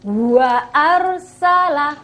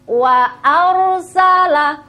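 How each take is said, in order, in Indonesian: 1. Wa didorong keluar dengan udara yang kuat. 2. Wa diucapkan ringan dengan udara yang lembut. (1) "tidak usah wa ar, wa arsala, menjadi salah" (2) "Ringan-ringan saja"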